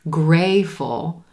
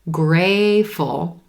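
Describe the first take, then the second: First: The T sound is left out entirely. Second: The same.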